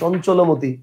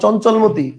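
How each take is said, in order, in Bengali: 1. 'l' ও 'm'-এর মাঝে একটি 'o' স্বরধ্বনি শোনা যায়। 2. 'l' ও 'm'-এর মাঝে কোনো স্বরধ্বনি শোনা যায় না। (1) "লয়ের পরে কি একটা ওকার দিচ্ছি না আমি? দিচ্ছি।" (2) "আমি তো আর বলবো না"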